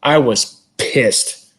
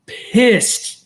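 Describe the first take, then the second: First: Said in the usual way. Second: "Pissed" pitched way up in comic outrage; exaggerated pissed. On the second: Real, not acted. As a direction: stretch "Pissed" high, like fake fury.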